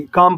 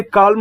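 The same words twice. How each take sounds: First: "काम" with a silent L, just kaam; correct pronunciation. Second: "काल्म" with the L sounded, as kaalm; wrong pronunciation. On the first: Teacher giving students the right way to say calm, silent L. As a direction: say "काम" with no L at all. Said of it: "काम पढ़ेंगे". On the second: Teacher demonstrating the wrong way to say calm, L sounded. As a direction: say "काल्म" with a clear L, the mistake to avoid. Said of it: "इसे काल्म नहीं पढ़ेंगे". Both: Shown as a demonstration.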